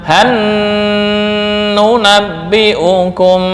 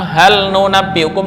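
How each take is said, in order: First: The l merges into the following n sound. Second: The l sound is pronounced clearly before n.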